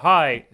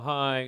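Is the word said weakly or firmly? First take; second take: firmly; weakly. First: It is said firmly and strongly. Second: It is said weakly, without firmness.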